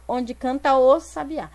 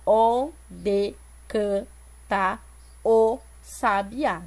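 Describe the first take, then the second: First: "onde canta o sabiá" flowing, with "ta" and "o" joined; natural linked reading. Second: "onde canta o sabiá" slow, with gaps between syllables; split syllables. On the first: Teacher showing how the line is read aloud, words linked smoothly. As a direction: run "canta o" together as one sound. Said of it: "Na leitura eu falo". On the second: Teacher showing how not to read it, slow and syllable by syllable. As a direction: chop "onde canta o sabiá" apart, keeping "ta" and "o" separate. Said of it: "Eu não vou falar". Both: Shown as a demonstration.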